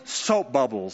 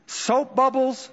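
First: Said in the usual way. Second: Soap bubbles raised high and stretched slowly; drawn-out exclamation. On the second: Acted. Preacher quoting Solomon to the congregation, high and slow. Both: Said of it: "says Solomon".

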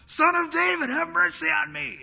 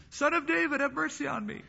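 First: Loud, very high imploring cry; crying louder. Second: High-pitched plea at ordinary volume; crying out. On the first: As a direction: shout out the plea at high pitch. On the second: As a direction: call out for mercy in a high, restrained voice. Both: Retold or imitated. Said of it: "he cries louder".

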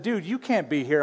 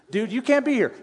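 First: Said in the usual way. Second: Higher, sharper rebuke of the priest; imitating a stern priest. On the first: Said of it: "I'm paraphrasing a little bit". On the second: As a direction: scold the king like an outraged priest. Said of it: "the priest saw him and said".

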